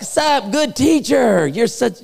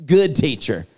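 First: High, stretched-out hammed-up greeting; butter him up in an exaggerated high drawl; mock flattery. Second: Said in the usual way. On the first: Preacher mimicking the ruler flattering Jesus, mock flattery.

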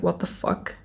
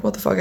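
First: Whispered shock at the mirror. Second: Said in the usual way. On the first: Retold or imitated. Seeing yellow teeth while brushing, shocked whisper. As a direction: gasp it out under your breath, horrified. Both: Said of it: "and I was like".

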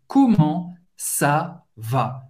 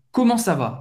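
First: "Comment ça va?" muito devagar e mais grave; very slow. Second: Said in the usual way. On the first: Shown as a demonstration. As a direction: estique "Comment ça va?". ("Comment ça va?" lentíssimo) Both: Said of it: "A segunda é comment ça va".

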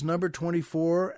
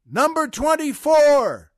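First: Said in the usual way. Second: High, loud drawn-out holler; shouting out. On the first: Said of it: "He yells". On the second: Acted. Prisoner calling out a joke number to the cell block, shouting. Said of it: "he shouts out".

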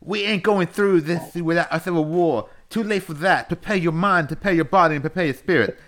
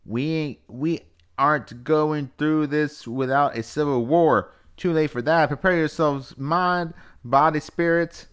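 First: High, loud Southern wrestling promo; hammed-up Southern wrestler rallying the troops; Dusty Rhodes impression. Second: High, loud, slow Southern proclamation; Southern accent. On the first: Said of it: "let me redo it as Dusty Rhodes". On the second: Acted. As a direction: read it like a rallying cry in a raised Southern accent. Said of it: "I was just doing Southern".

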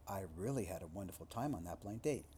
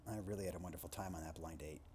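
First: Said in the usual way. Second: Lower, softer, fast sarcastic throwaway. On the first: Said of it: "Say them literally". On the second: Shown as a demonstration. Lecturer demoing sarcasm about a blind date, low sarcastic throwaway. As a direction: toss it off as if the date was awful. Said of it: "then say them sarcastically".

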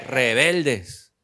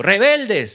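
First: Said in the usual way. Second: A sharp yell of the word "Rebeldes", louder and higher; shouted. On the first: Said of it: "él no se lo dijo rebelde". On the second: Retold or imitated. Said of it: "se lo gritó".

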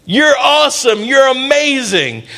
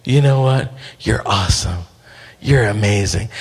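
First: High, proclaiming affirmation; rousing praise. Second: Put-on low, soft talk into a baby's ear; tender murmured affirmation. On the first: Acted. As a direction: build them up in a high, ringing voice. Angel proclaims praise to Gideon. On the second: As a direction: speak low and close, soothing a sleepy baby. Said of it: "I just start speaking in their ear".

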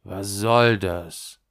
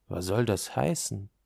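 First: Slow, weighted question leaning on SOLL; more determined. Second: Said in the usual way. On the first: A narrator's reading. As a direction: demand it slowly and firmly, stressing SOLL. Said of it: "diesmal entschlossener". (entschlossen, langsam, mit Nachdruck auf SOLL)

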